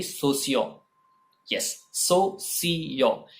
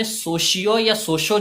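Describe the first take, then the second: First: "सोशियो" with a clear s, so-see-yo; सोशियो without any sh; correct pronunciation. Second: "सोशियो" and "सोशो" with a sh sound; सोशियो with sh in the middle; incorrect pronunciation. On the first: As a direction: spell out "सोशियो" slowly as so, see, yo. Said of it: "इसमें श का sound कहीं भी नहीं है". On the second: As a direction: say "सोशियो", "सोशो" as so-shi-o, so-sho. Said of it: "जैसा कुछ नहीं होता". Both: Shown as a demonstration.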